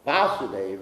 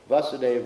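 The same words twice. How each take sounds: First: The first vowel is said long. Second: The first vowel is said short. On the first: It names the deity himself. "Vasudev refers to Krishna in Mathura" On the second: It names the father of the deity. "Vasudev refers to the father of Krishna in Mathura"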